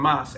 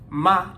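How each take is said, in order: First: The final s sound is pronounced. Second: The final s sound is dropped. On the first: "instead of mas" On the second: "they cut the S's"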